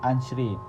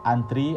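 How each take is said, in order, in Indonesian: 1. Konsonan setelah n terdengar seperti ch atau s. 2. Konsonan setelah n adalah t biasa. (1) "fonem T yang diucapkan C" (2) "fonem T"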